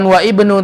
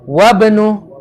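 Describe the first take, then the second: First: The i sound of ibnu is pronounced separately. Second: The i sound is dropped and the words linked. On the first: The speaker calls it wrong. "bukan wa ibnu" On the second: The speaker calls it right. "tapi wa benu"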